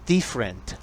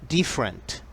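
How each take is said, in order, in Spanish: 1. La vocal después de la f se omite. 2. La vocal después de la f se omite.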